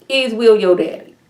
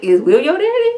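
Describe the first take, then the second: First: "daddy" dropping down at the end; pointed question. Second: "daddy" swooping high in a rising question; prying question. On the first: Viewer presses about her father, "daddy" falling. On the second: Viewer asks about her father, "daddy" sliding up high. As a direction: lift "daddy" way up, fishing for an answer. First take of nosy question. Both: Retold or imitated.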